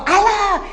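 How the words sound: It is said in an irritated, angry tone. The caller catches the leftover anger from the argument. "vai atender no mesmo tom"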